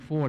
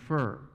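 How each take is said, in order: First: The word has its standard pronunciation. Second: The word is said like 'fur'. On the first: "instead of saying for" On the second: "they might say fur"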